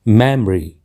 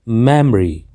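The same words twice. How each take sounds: The two takes are said the same way.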